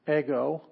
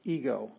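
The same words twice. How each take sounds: First: 'ego' the Greek way, with short 'e' as in egg; 'ego' in Greek, opening on a short eh; Greek pronunciation. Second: 'ego' the English way, with long 'ee'; everyday English 'ego', opening on a long ee; English pronunciation. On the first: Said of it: "ego in Greek". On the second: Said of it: "where we get the word ego". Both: Shown as a demonstration.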